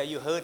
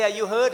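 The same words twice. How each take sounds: First: Said in the usual way. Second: Asked louder, a bit higher; louder retold question. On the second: Pastor retelling his angry question to the cyclist, louder. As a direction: push the question out loud and high. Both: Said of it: "That's what I said to him".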